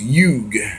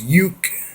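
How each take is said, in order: First: The word ends with a voiced g sound. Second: The word ends with a voiceless k sound. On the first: "the root is yug, that they spell Y E U G" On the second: "more than likely pronounced as Yuk, Y U K"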